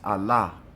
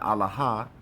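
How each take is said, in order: First: The final letter's sound is left silent. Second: The final letter's sound is pronounced. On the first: The speaker calls it right. "it does not pronounce the last word" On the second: The speaker calls it wrong. "So it's not Allah"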